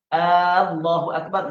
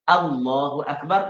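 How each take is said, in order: First: The first vowel of Allah is drawn out long. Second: The first vowel of Allah is short. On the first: It asks whether God is the greatest. The speaker calls it wrong. "makna adakah Allah Maha Agung?" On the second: It states that God is the greatest. The speaker calls it right. "makna Allah Maha Agung"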